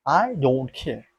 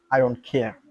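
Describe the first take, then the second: First: "I don't care" drawn out slowly, each word weighted; slow it down and lean on every word; defiant, deliberate I don't care; slow emphatic repeat. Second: Said in the usual way. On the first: Real, not acted.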